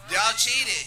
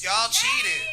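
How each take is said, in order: First: Repeated accusation. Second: Shouted out high and loud, "cheated" stretched; accusing shout. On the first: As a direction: say it again, firm and loud. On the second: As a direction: call the crowd out for cheating, full voice. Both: Real, not acted. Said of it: "should I just be brutally honest".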